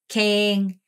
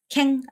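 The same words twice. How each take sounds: First: The vowel is drawn out long. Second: The vowel is cut short. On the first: The speaker calls it right. "에를 장음 처리해야 돼요" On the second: The speaker calls it wrong. "캥 아니고"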